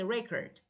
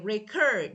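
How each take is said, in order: First: The word is said quickly in a relaxed way. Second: The word is said slowly with exaggerated care. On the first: The speaker calls it right. "I say record" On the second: The speaker calls it wrong. "I don't say record"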